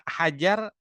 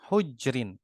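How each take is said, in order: First: The first vowel is an 'a' sound. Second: The first vowel is a 'u' sound. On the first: This reading is possible for later narrators. "itu bisa hajar" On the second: This is the reading for early narrators. "haknya didomahkan, hanya didomahkan"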